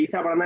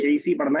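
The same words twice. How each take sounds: First: ईसा with a final long aa; alif reading. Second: ईसी with a final long ee; ya reading. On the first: Teacher contrasting readings for the class, ईसा ending in aa. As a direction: end ईसा on the aa sound. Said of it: "तो वो अलिफ पढ़ा जाएगा". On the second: Teacher contrasting readings for the class, ईसी ending in ee. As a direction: end ईसी on the ee sound. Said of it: "तो वो या पढ़ा जाएगा". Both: Shown as a demonstration.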